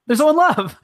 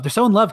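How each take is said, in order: First: Higher and louder, mock-swooning over the couple; hammed-up swoon at the lovers; swooning gush. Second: Said in the usual way. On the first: Shown as a demonstration. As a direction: gush it like a starry-eyed fan.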